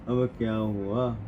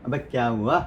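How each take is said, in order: First: It is read flatly without feeling. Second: It is said with strong feeling.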